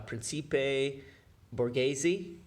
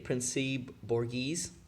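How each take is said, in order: First: It is said with Italian pronunciation. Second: It is said with American English pronunciation. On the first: "if you pronounce it with uh, Ita- Italian phonetics" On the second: "if we do it in, in, in American"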